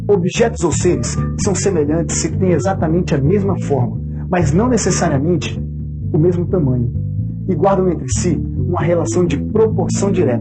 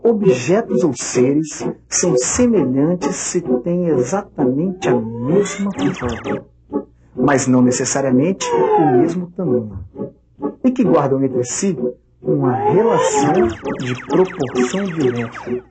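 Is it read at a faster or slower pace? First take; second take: faster; slower. First: It is read at a faster pace. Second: It is read at a slower pace.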